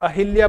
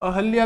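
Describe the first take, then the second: First: An 'i' vowel is said between h and l. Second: There is no vowel between the h and l. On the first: The speaker calls it wrong. "अपन अहिल्या बोल लेते हैं" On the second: The speaker calls it right. "अहल्या भी शुद्ध है"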